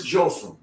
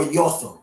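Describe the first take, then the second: First: Jotham with an English J; alternate pronunciation. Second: Yotham with a Y sound; alternate pronunciation. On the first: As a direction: start Jotham on a J sound. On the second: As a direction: start Yotham on a Y, like yoke. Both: Shown as a demonstration. Gives two forms of the name.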